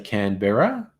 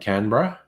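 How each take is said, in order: First: It is pronounced the American way. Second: It is pronounced the Australian way. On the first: "Americans tend to say Canberra" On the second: "rather than Canberra"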